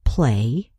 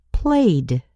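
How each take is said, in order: First: Said in the usual way. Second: Played with a crisp final d; ending added. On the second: Shown as a demonstration. Teacher showing the past ending on played. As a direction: clip the d at the end of played. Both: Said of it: "add the suffix E D".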